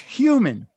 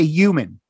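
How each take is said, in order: First: The word starts with a clear H sound. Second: The word starts without an H sound. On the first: The speaker calls it right. "But it's human" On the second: The speaker calls it wrong. "I don't do that H thing when I say it"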